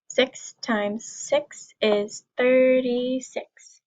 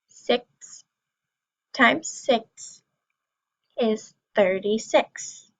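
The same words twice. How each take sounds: First: It is said at a faster pace. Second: It is said at a slower pace.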